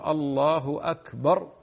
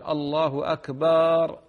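First: The vowel after b in akbar is short. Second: The vowel after b in akbar is long. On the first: It states that God is greatest. The speaker calls it right. "هذا هو" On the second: It names a drum. The speaker calls it wrong. "مد الباء... غلط أيضا لأن أكبر الطبل"

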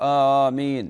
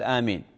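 First: The word is said aloud and clearly. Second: The word is said quietly under the breath. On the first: It is said audibly in the prayer. "يجهر بآمين" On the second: It is said silently to oneself. "يسر بها في نفسه"

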